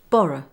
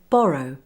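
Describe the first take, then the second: First: The final vowel is relaxed and reduced. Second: The final vowel is a full glide. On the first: "in connected speech, followed by a consonant, you will often hear it pronounced as borrow" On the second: "On its own, you would say borrow, with the O sound at the end"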